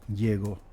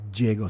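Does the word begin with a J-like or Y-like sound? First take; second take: Y-like; J-like. First: It begins with a Y-like sound. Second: It begins with a J-like sound. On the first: "en medio de enunciado se pronuncia, digamos, como I" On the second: "a principio de enunciado, como J inglesa"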